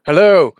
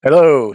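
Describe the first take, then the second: First: Loud, high spooky hello; booming demon lord. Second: Bright, loud festive hello; cheery greeting. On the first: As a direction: boom it out like a Halloween villain. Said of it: "I mean". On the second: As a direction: greet like it's Christmas. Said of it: "I don't mean that". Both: Shown as a demonstration.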